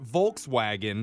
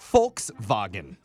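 First: The word begins with a V sound. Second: The word begins with an F sound. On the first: The speaker calls it wrong. "it's also not Volkswagen" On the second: The speaker calls it right. "the V is pronounced with an F"

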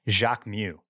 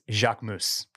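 First: The name ends in a vowel, S silent. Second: The name ends with a pronounced S sound. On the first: The speaker calls it wrong. "it is not Jacques Mew" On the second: The speaker calls it right. "It's Jacques Mousse"

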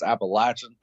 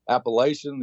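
First: It is said with a Southern drawl. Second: It is said without a Southern drawl. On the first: The speaker sounds local to the region. The speaker calls it right. "you kind of got to say it with a Southern drawl" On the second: The speaker sounds like an outsider to the region. The speaker calls it wrong. "you kind of show that you're not from around here"

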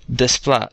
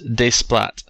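First: The final T sound is silent. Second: The final T sound is pronounced. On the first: The speaker calls it right. "his name is pronounced Desplat" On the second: The speaker calls it wrong. "not Desplat"

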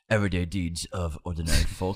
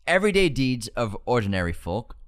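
First: It is said in a Gandalf impression voice. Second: It is said in his own normal voice.

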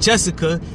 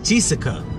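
First: The first vowel sounds like 'eh'. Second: The first vowel sounds like 'ee'. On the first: The speaker calls it right. "it's eh, right? So it's Essa, which is why we call women Jessica" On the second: The speaker calls it wrong. "and not Jessica"

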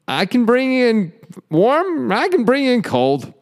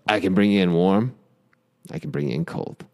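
First: It is said in a complaining, whiny way. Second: It is said in the show's serious style.

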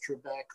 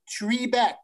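First: The first syllable has a short, reduced vowel. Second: The first syllable has a long 'ee' vowel. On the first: This is how most people say it. "everybody I know says Trebek" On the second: This is how the show's announcer says it. "He says tree"

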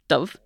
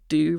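First: The word ends in a v consonant sound. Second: The word ends in a u vowel sound. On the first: This is the pronunciation used elsewhere. "rather than v" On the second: This is the northern pronunciation. "BHs in Irish, in Ulster Irish, would tend to be pronounced u rather than v"

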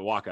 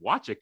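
First: The name has a 'k' sound in the middle. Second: The name has a 'ch' sound in the middle. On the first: The speaker calls it right. "I guess, is the correct pronunciation" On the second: The speaker calls it wrong. "I know it's pronounced differently"

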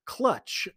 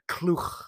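First: It sounds like the English word clutch. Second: It sounds unlike the English word clutch. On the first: The speaker calls it wrong. "clutch was how I read it in my head before noticing there's no T in the name" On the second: The speaker calls it right. "It's more like Kluch"

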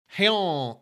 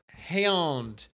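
First: The vowel is a quick, short A sound. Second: The vowel is drawn out, not a short A. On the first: The speaker calls it right. "Hand has a short A" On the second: The speaker calls it wrong. "It's not hand"

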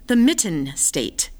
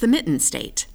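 First: The 't' in 'mitten' is strongly exaggerated. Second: The 't' in 'mitten' is clear but natural. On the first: The speaker calls it wrong. "that sounds overproduced. That sounds overdone" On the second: The speaker calls it right. "find that balance of... You've got the consonants in there"

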